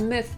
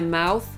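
First: It is said with a short, reduced vowel. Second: It is said like the word 'mouth'. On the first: The speaker calls it right. "tylko właśnie myth na końcu" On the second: The speaker calls it wrong. "Nie mouth"

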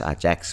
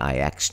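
First: It is said 'ah-jacks' with a j sound. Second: It is said 'eye-ex' with no j sound. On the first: The speaker calls it wrong. "ชื่อทีมที่คนออกเสียงผิดกันตลอด" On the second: The speaker calls it right. "มันคือ"

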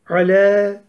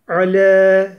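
First: The L is light, with a thin front vowel. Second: The same.

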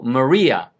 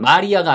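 First: The stress falls toward the back of the name. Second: The stress falls toward the front of the name. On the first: The speaker calls it right. "여자는 뒤 액센트가 들어가요" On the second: The speaker calls it wrong. "이거는 마리아가 아니고"

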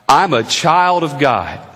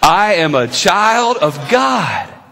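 First: It is said in a calm, plain tone. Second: It is said in an excited tone.

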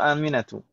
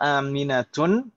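First: The name ends with a plain vowel. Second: The name ends with an n sound. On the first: The speaker calls it right. "yang betul Aminatun atau Aminatu?" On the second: The speaker calls it wrong. "yang betul Aminatun atau Aminatu?"

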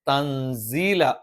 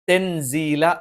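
First: The first vowel sounds like 'a'. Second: The first vowel sounds like 'e'. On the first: The speaker calls it right. "തൻസീല എന്ന് പറയണം" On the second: The speaker calls it wrong. "തെൻസീല എന്ന് പറയരുത്"

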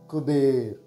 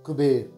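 First: It is said slowly. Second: It is said at normal speed.

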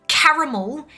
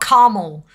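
First: The second A is pronounced, giving three syllables. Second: The second A is dropped, giving two syllables. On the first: "is a sweet treat" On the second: "not caramel"

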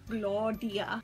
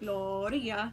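First: The R is said like a D sound. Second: The R is a single quick flap. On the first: "I would start out with just doing a D sound, like a D" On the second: "then it would be like one flip"

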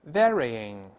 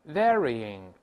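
Both takes have the same delivery.

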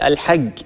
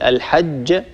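First: The final consonant is a hard g sound. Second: The final consonant is a j sound. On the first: The speaker calls it wrong. "يقول الحج هكذا" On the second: The speaker calls it right. "بدل أن يقول الحج"

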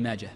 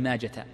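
First: The name ends with a silent-style h sound. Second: The name ends with a t sound. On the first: The speaker calls it right. "وإنما تقول عند ابن ماجه، فهي هاء ساكنة" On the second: The speaker calls it wrong. "لا تجعلها تاء، فلا تقول عند ابن ماجة"

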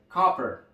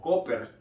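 First: The first vowel is an open 'a' sound. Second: The first vowel is a Spanish-like 'o' sound. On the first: The speaker calls it right. "realmente la pronunciación correcta es copper... es una A, donde tenemos que abrir bastante la boca" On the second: The speaker calls it wrong. "se pueda leer con facilidad de una manera españolizada como copper"

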